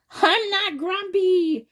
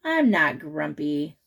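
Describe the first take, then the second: First: Much higher, slow, louder insistence; grumpy denial. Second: Lower, slow grumble; a touch of sulky. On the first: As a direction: deny it stubbornly, like a sulky kid. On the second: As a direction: mutter it, sulking. Jim sulks quietly. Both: Acted.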